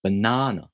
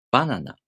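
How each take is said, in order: First: "Banana" with a long, stressed middle syllable; English "Banana", leaning on the second syllable. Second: Japanese "Banana", pitch falling right after Ba; Japanese pitch accent. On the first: Teacher contrasting languages, English "Banana" stressed on the second syllable. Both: Shown as a demonstration. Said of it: "banana is pronounced banana in Japanese".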